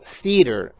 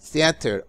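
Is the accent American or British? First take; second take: American; British. First: It is said in an American accent. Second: It is said in a British accent.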